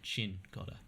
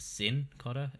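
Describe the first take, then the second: First: The name begins with a ch-like sound. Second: The name begins with an s-like sound. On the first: The speaker calls it right. "you pronounce it like there's almost a H in there" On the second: The speaker calls it wrong. "like almost like there's an S at the front"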